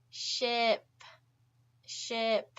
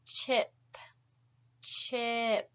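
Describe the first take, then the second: First: "ship" with a smooth, hissing sh held from the back; sh sound demo. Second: "chip" with a sharp, forward ch, the tongue pushed toward the front; stop-then-release ch at the start of "chip"; ch sound demo. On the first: Teacher contrasting "ship" with "chip" for students. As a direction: let the sh in "ship" flow with no stop. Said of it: "Do you notice that subtle difference?". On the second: Teacher showing students the forward ch in "chip". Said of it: "With the C H sound, it's more forward in your mouth". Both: Shown as a demonstration.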